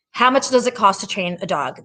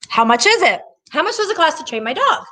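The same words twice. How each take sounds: First: Said in the usual way. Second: Lightly mocking caller, pitched up at the end; mimicked customer question. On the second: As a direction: imitate a naive customer asking the price, higher voice. Acts out callers' first question.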